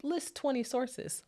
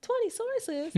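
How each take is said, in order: First: Higher, slow recital of the demand; quoted assignment instruction. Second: Very high-pitched mock disbelief; incredulous reaction. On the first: Retold or imitated. Professors setting a paper's requirements, slow mock instruction. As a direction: read out the requirement slowly, pitched up. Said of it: "where they're like". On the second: Overwhelmed student reacting to the source requirement, high incredulous question. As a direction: squeak the demand back in disbelief. Retold shock at paper requirement.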